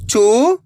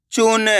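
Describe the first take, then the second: First: चून broken into separate sounds; syllable by syllable. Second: Said in the usual way. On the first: Shown as a demonstration. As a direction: sound out चून one letter at a time. (चून को एक-एक अक्षर अलग करके) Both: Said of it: "एक अक्षर का उच्चारण करके".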